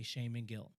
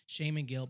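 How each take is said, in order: First: Said in the usual way. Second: "shame and guilt" slurred into one word; run together as one word. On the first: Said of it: "then I stop and I say". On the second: Shown as a demonstration. Explaining the slip on stage, "shame and guilt" run together. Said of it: "but it becomes one word".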